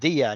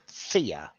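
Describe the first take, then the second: First: The first sound is a voiced th. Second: The first sound is a voiceless th. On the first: The speaker calls it right. "says the voiced th" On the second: The speaker calls it wrong. "not Thea"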